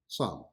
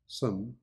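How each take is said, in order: First: The vowel is full and clearly stressed. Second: The vowel is reduced and unstressed.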